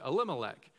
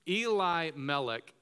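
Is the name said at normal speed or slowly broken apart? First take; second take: normal; slowly. First: The name is said quickly as one word. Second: The name is said slowly, split into parts. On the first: "what we would say" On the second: "the slowed down version"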